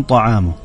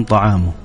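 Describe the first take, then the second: Both takes have the same delivery.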